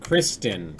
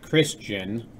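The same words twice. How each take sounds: First: "Kristen" with a clear t, Kris-ten; corrected name. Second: "Christian" with a ch sound in the middle; mispronounced name. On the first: Streamer correcting chat on the name, "Kristen" with a clear t. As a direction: say "Kristen" lower, with the t sounded. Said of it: "I think I was saying it just fine". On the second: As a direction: say "Christian" slowly, middle blurred into "ch". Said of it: "How was I pronouncing it?". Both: Shown as a demonstration.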